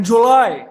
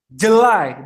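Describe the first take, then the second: First: "July" as joo-LAI, first vowel a full U; learner's "July", spelled-out U. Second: "July" as juh-LAI, first vowel a schwa; English-style "July", weak first syllable; reduced-vowel July. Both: Shown as a demonstration. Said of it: "bukan Julai".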